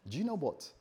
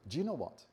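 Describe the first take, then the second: No difference in how they are said.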